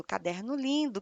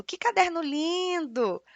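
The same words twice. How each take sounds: First: Said in the usual way. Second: Slow, higher admiring exclamation; exclaiming. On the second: Shown as a demonstration. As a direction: gush over the notebook, drawing it out. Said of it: "Eu estou exclamando".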